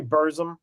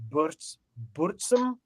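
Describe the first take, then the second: First: "[name]" said as "Berzum", r-coloured er and a plain z; the everyday American "[name]" as "Berzum". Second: "[name]" said slowly as "Boort-soom", rounded oo and a ts sound; Norwegian-style [name]. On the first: Shown as a demonstration. Host giving the usual American "Berzum" for contrast. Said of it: "We say [name]". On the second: Retold or imitated. Host copying how the musician says his band name, slow "Boortsoom". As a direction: draw out "[name]" as "Boortsoom", the way the band's founder says it. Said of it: "I think is how he says it".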